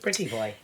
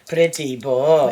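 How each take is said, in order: First: It is said in a flat, matter-of-fact tone. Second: It is said in a flirtatious, admiring tone.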